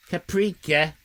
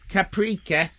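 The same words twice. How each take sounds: The two takes are said the same way.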